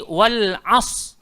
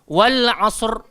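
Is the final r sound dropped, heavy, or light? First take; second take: dropped; light. First: The word ends without any r sound. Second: The word ends with a light, brief r. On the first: The speaker calls it wrong. "tidak menyebut huruf ra di penghujungnya" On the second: The speaker calls it right. "kita kena adakan sedikit er er"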